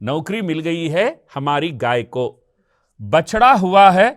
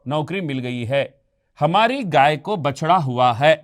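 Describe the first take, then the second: First: The pause comes after 'gaay ko'. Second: The pause comes after 'mil gayi hai'. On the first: The cow got a job. The speaker calls it wrong. "यहां अनुचित स्थान पर है विराम चिन्हों का प्रयोग" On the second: Someone got a job and the cow had a calf. The speaker calls it right. "उचित विराम चिन्ह रखे गए तो आप सही अर्थ देखिए"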